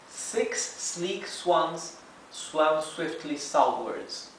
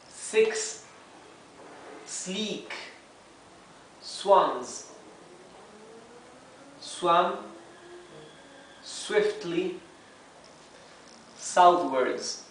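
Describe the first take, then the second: First: It is said smoothly at normal speed. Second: Each word is said separately and slowly. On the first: "now let's read the whole tongue twister in real speed" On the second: "let's begin reading one word at a time"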